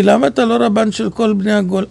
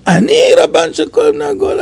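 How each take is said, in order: First: Said in the usual way. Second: Much higher, shouted disbelief at אני; stunned mock outcry; incredulous echo. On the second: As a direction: fling it back as if it's absurd.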